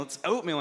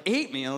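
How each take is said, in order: First: Said in the usual way. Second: "oatmeal" said as "eight-meal"; echoed mispronunciation. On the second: Retold or imitated. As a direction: query it with "oatmeal" starting "ay". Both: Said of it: "when people corrected Mercy".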